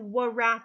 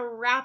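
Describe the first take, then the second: First: The word begins with a W sound before R. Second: The word begins with a plain R sound. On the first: The speaker calls it wrong. "do I say, I'm going to wrap a present? I don't" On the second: The speaker calls it right. "that W is silent, and you just hear the R sound"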